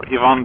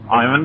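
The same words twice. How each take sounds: First: The name is said the Russian way. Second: The name is said the English way. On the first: The speaker calls it right. "with the better pronunciation of the Russian name Ivan" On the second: The speaker calls it wrong. "I have no idea why uh, British and Americans call it Ivan"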